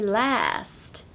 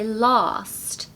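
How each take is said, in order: First: It is said in an American accent. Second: It is said in a southern British accent. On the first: "in American they say last" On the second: "we say last"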